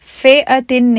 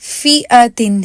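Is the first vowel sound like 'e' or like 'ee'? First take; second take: e; ee. First: The first vowel sounds like an 'e'. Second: The first vowel sounds like a long 'ee'. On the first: The speaker calls it wrong. "फेअतिन नहीं पढ़ेंगे" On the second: The speaker calls it right. "इसी तरह फीअतिन है"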